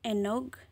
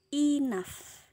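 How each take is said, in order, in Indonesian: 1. Kata ini berakhir dengan bunyi g yang keras. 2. Kata ini berakhir dengan bunyi f. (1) "kalau nggak tahu cara bacanya, ini bakal dibaca enoh, enog" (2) "G H-nya dibacanya huruf F"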